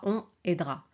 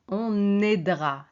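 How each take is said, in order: First: The n sound is not linked to the vowel. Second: The n sound links into the next vowel. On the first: The speaker calls it wrong. "c'est pas" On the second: The speaker calls it right. "on fait la liaison"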